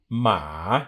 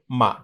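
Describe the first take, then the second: First: The pitch dips low and then comes up. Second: The syllable is short and light, without contour. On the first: It means a horse. "it's got a dip" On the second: It marks a question. "this neutral word here"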